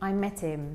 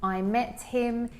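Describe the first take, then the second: First: The H at the start of him is dropped. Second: The H at the start of him is pronounced. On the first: "he would probably say" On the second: "instead of saying"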